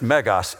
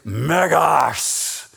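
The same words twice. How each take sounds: First: The word is said plainly, without force. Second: The word is said forcefully, deep in the throat. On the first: The word is merely pronounced. The speaker calls it wrong. "it's not just megas" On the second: The word conveys the feeling of bigness. The speaker calls it right. "because it's big. It's guttural"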